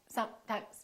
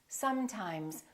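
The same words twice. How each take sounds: First: The continuant sounds are cut short. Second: The continuant sounds are held long. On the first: The speaker calls it wrong. "rush through the continuants and make them too short" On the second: The speaker calls it right. "take your time and fully pronounce the continuant"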